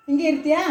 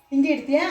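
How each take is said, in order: Both takes have the same delivery.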